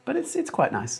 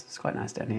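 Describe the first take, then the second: First: "quite nice" said in a high, squeaky mock voice. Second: "It's quite nice down here" whispered soft and breathy. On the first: Stream chat about the weather. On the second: Pretend. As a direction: drop to a hushed aside. Repeats line, dropped to whisper.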